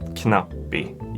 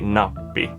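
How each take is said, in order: First: The word begins with a K sound. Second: The word begins without a K sound. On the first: The speaker calls it wrong. "you don't pronounce it knappi" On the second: The speaker calls it right. "you say nappi because you don't want to say the K"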